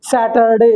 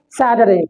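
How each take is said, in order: First: "सैटरडे" as SAT-ER-DAY, every letter; full r and d in "सैटरडे"; common mispronunciation. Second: "सैटरडे" softened to sa-ta-rey; quick tapped middle in "सैटरडे"; correct pronunciation. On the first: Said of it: "लेकिन हम पढ़ते क्या है". ("सैटरडे" को सै-टर-डे) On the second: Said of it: "इसकी pronunciation क्या है". ("सैटरडे" को सैटरे जैसा) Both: Shown as a demonstration.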